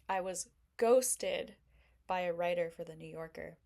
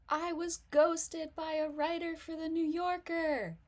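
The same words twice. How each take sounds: First: It is said in a gloomy, self-pitying tone. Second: It is said in a sloppy, overexcited, tipsy tone. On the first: Being ghosted is seen as a bad thing. "that's kind of like a glass half empty mentality" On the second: The speaker is oversharing while drunk. "girl, you spilled your drink everywhere"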